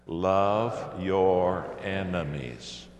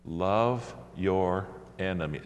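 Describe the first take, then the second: First: Slow, louder declaration; said really loud. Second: Said in the usual way. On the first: Shown as a demonstration. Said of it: "Say it really loud". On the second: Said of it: "say out loud the next three words".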